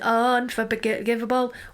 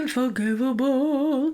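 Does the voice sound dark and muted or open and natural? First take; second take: open and natural; dark and muted. First: The voice sounds open and natural, larynx unforced. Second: The voice sounds dark and muted, larynx lowered. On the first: "rather than" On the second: "Very much kind of muted there. Pushing the larynx down"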